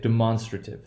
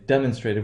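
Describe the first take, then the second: First: The stress shifts to a different syllable. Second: The stress sits where 'demonstrate' has it. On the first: The speaker calls it right. "we say demonstrative. There's a shift in the place of the accent" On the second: The speaker calls it wrong. "we don't say demonstrative"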